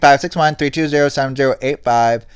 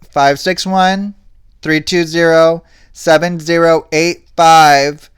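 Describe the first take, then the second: First: The number is said at normal speed. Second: The number is said slowly.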